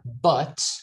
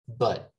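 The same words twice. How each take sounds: First: The word has a full, clear vowel. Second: The word has a weak, reduced vowel.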